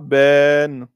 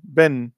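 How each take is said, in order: First: The vowel is lengthened before the final n. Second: The vowel is short before the final n. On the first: The speaker calls it wrong. "vous direz pas ben. Non" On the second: The speaker calls it right. "comme si le alif n'était pas là"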